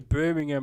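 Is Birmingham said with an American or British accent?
British. It is said British-style, with a reduced ending.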